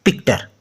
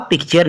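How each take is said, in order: First: "पिक्टर" with a hard T, softer and lower; wrong pronunciation. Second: "पिक्चर" with a ch sound for the T; correct pronunciation. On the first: Teacher showing what not to say, "पिक्टर" with a hard T. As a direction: drop down and say "पिक्टर" with टर instead of चर. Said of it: "बोला पिक्चर ना कि". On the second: Teacher showing students the rule, "पिक्चर" said with a ch sound. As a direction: say "पिक्चर" with चर at the end, not टर. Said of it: "चा निकलेगा, तो इसलिए हमने बोला". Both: Shown as a demonstration.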